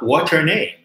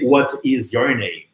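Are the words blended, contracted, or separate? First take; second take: blended; separate. First: All the words run together into one blend. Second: Each word is said separately and in full. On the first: "mas você falar what's your name?" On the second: "Não é só aprender what is your name"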